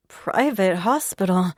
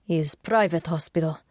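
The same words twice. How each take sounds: First: Said in the usual way. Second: Lightly voiced Russian man; Russian accent. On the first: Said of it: "protagonist repeats his words". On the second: Sasha's Russian-accented reply.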